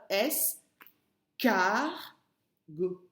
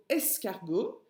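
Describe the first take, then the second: First: "S, car, go" as three detached syllables. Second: Said in the usual way. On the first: Shown as a demonstration. Teacher asking pupil to listen well, "S, car, go" syllable by syllable. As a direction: separate "S, car, go" with clear pauses for the listener. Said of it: "Écoute bien".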